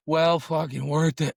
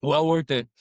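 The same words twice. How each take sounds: First: Well fucking worth it, drawn out and slow, stress on "Well"; savoring emphasis; slow emphatic praise. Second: Said in the usual way. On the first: Real, not acted. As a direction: lean hard on "Well" in "Well fucking worth it", slowly.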